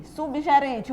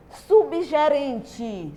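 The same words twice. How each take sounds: First: Said in the usual way. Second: "Subgerente" stretched slowly, sound by sound; drawn-out word. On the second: Shown as a demonstration. Teacher introduces a new word to pupils, drawn out slowly. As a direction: draw out "Subgerente" for the class.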